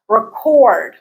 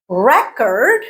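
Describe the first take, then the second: First: "Record" stressed on the second syllable, re-CORD; weak first syllable, strong full vowel in the second of "Record"; verb stress on second syllable. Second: "Record" stressed on the first syllable, REC-ord; noun stress on first syllable. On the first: Teacher showing the verb form, second-syllable stress. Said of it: "stress changes from the first syllable to the second". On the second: Teacher showing the noun form, first-syllable stress. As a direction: hit the first syllable of "Record", second one weak. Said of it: "is a noun". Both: Shown as a demonstration.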